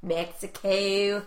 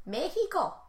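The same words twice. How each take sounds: First: Drawn-out Mexico. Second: Mexico said as "Méhico", Spanish j sound, pitched up; Spanish-style Mexico. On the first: Shown as a demonstration. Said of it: "Why can't I say Mexico?". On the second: Retold or imitated. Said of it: "don't offend them".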